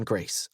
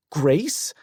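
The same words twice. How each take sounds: First: Soft, tender name. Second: Incredulous rising Grace; shocked question. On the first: Softly answering the caller. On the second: Wife stunned to hear another woman's name, incredulous. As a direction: repeat the name in disbelief. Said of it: "Elizabeth's mouth fell open". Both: Acted.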